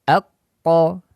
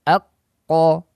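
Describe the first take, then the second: No difference in how they are said.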